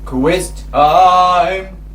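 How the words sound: It is shouted in a low pitch. "they can shout it low"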